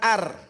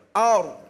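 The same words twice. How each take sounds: First: The r is pronounced light and thin. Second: The r is pronounced heavy and thick. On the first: The speaker calls it wrong. "bukan ar" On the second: The speaker calls it right. "Dibacanya tebal"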